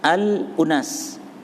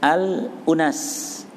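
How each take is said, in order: No difference in how they are said.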